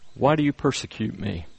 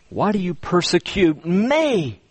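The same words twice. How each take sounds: First: The word 'me' gets no special emphasis. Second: The word 'me' is strongly emphasized.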